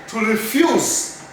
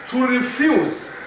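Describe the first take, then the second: The two takes are said the same way.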